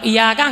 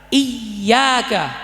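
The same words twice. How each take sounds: First: The middle consonant is short and single. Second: The middle consonant is held long and doubled. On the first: The speaker calls it wrong. "Kalau iyyaka enggak sah" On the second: The speaker calls it right. "Harus ditekan"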